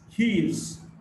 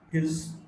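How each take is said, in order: First: Both words are said in full. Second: The two words are run together, contracted.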